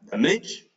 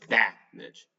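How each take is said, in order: First: "the midge" said da-MIDGE, weight on the end; stress on second syllable. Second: "that midge" said DAM-age, open short A first; stress on first syllable. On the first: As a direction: punch "midge" and keep "the" weak. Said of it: "if it were here". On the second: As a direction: lean on "that" and let "midge" fall away. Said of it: "but it's that midge". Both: Shown as a demonstration.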